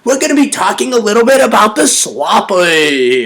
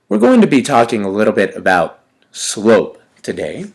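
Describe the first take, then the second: First: It is said in a lively, playful voice. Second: It is said in a flat, boring teacher voice.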